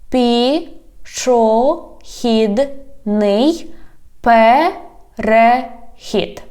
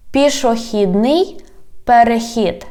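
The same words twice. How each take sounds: First: "Пішохідний перехід" very slow, every syllable apart. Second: Said in the usual way. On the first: Shown as a demonstration. Teacher has learners repeat, "Пішохідний перехід" slowly by syllables. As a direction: stretch and separate each syllable of "Пішохідний перехід". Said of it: "divide it into syllables". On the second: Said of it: "I read the whole word".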